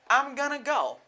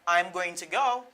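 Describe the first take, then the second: First: 'Going to' is blended smoothly into 'gonna'. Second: Each word of 'going to' is said fully.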